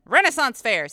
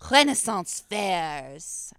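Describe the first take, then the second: First: Renaissance is said with a plain English accent. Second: Renaissance is said with a French accent. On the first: The speaker calls it right. "There we go" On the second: The speaker calls it wrong. "I don't know why I said Renaissance with a French accent"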